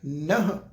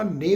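First: The word ends on a bare 'h' sound. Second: The word ends with an 'e' vowel. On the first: The speaker calls it right. "ਨਹ ਪਾਠ ਆਏਗਾ" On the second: The speaker calls it wrong. "ਨੇ ਵੀ ਨਹੀਂ ਪੜ੍ਹਨਾ"

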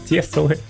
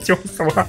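First: The first vowel is pronounced like 'e'. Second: The first vowel is pronounced like 'yo'. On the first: The speaker calls it right. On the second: The speaker calls it wrong. "Кто говорит тёсла?"

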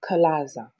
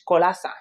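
First: The name is pronounced with English sounds. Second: The name is pronounced with Spanish sounds. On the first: "But I guess it's" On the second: "I say it in Spanish"

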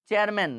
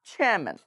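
First: The ch sound has no puff of air. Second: The ch sound has a strong puff of air. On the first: The speaker calls it wrong. "আমরা চ দিয়ে বলে ফেলি" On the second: The speaker calls it right. "চ যুক্ত ছ দিয়ে বলতে হবে"

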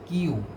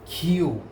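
First: The first consonant has no puff of air. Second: The first consonant has a strong puff of air. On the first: The speaker calls it wrong. "নট কিউ" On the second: The speaker calls it right. "এটার উচ্চারণ হবে খিউ"

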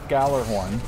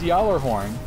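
First: The name begins with a hard g sound. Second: The name begins with a y sound. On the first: The speaker calls it wrong. "So they say it wrong in the game" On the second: The speaker calls it right. "It is Yawler horn"

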